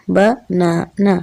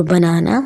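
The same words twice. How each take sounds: First: बनाना slowly split as ब-ना-ना; syllable by syllable. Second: Said in the usual way. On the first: Shown as a demonstration. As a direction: break बनाना into three separate beats, ba-na-na. (बनाना को syllables में तोड़कर, ब-ना-ना) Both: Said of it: "syllable में break करते हैं".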